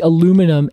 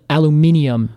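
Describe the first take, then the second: First: The word is said in an American pronunciation. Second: The word is said in a British pronunciation.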